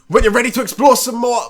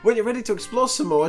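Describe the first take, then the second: First: It is said in a strong, exaggerated character voice. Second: It is said in a softer, toned-down character voice. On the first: The speaker calls it wrong. "I need to stop doing that voice" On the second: The speaker calls it right. "I just got to do a softer version of my voice"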